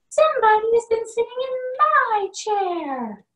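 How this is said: It is said in a middle-sized voice.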